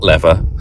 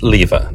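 First: It is said with an American pronunciation. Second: It is said with a British pronunciation. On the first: The speaker calls it wrong. "That is one American pronunciation I will never get behind" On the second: The speaker calls it right. "of course we say lever"

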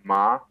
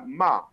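First: The syllable is said with a rising tone. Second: The syllable is said with a falling tone. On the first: It means flax. "طلعنا بالصوت" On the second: It expresses blame or scolding. "النغمة الرابعة الهابطة"

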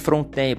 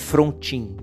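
First: The name is said with a French-style pronunciation. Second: The name is read with Portuguese sounds, as spelled. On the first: The name has a French origin. "eu tenho por mim que é Frontin, porque ele tinha uma origem, acho que francesa" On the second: This is how the spelling reads. "Se escreve Frontin"

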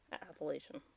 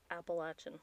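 First: The middle of the word does not sound like 'apple'. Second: The middle of the word sounds like 'apple'. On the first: The speaker calls it wrong. "and not Appalachian" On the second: The speaker calls it right. "you pronounce it Appalachian"

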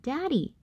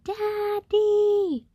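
First: It is said at normal, soft volume. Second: It is yelled as loudly as possible.

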